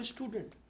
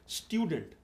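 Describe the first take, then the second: First: स्टूडेंट said with a plain "stoo", no glide; common mispronunciation. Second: स्टूडेंट said with a "styu" glide; correct pronunciation. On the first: Coach quotes how others say it, common mispronunciation. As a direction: say स्टूडेंट as "STOO-dent", dropping the y. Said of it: "आप बोलोगे स्टूडेंट". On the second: Coach models a word for his interviewer, correct styu pronunciation. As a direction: say स्टूडेंट as "STYU-dent", with a y sound. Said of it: "देखो, मैंने अभी एक word बोला". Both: Shown as a demonstration.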